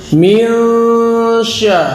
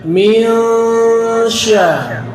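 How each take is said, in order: The two takes are said the same way.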